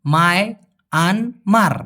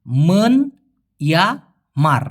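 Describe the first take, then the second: First: মায় আন মার split into slow beats for the country name; country name taken apart slowly; syllable by syllable. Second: মন ইয়া মার split into three slow beats; Malay word taken apart slowly; syllable by syllable. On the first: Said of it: "আর এখানে". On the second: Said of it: "দেখুন". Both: Shown as a demonstration.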